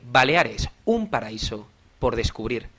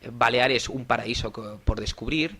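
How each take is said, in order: First: It is said with a rhythm and timed pauses. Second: It is said plainly without a set rhythm.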